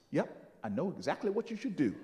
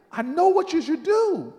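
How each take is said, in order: First: Low, quick, soft reply; knowing understatement. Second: Loud, high proclamation; emphatic repeat. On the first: Miss Jones after thinking a second, quietly certain. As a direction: say it quietly, sure of yourself. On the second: Miss Jones stringing him along, emphatic. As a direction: proclaim it with total certainty. Elder repeats claim, teasing out suspense. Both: Retold or imitated.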